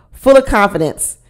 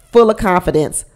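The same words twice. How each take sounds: The two takes are said the same way.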